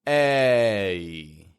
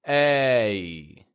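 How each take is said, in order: No difference in how they are said.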